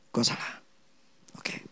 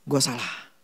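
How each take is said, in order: First: Breathy whisper, barely there; whispered self-blame; whispered admission. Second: Low, soft self-rebuke; muttered admission of fault; quiet admission. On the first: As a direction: whisper it like a private confession. Repeats the realization. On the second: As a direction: murmur it as if to yourself. Businessman realizing he was wrong. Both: Retold or imitated.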